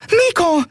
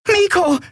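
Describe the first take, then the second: First: High sharp cry of a name; small creature warning the boy, high alarmed call. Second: Very high cry of the name; calling out. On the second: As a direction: call his name to wake him. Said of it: "rief Nelen aus". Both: Acted.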